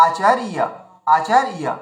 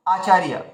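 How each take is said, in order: First: Acharia with চার held, then a short gap before yeah; split word. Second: Said in the usual way. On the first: Shown as a demonstration. Teacher models for learners, Acharia divided after a long second syllable. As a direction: lengthen and break after র in Acharia. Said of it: "এভাবে উচ্চারণ করবো". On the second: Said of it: "তো আমরা কি করবো".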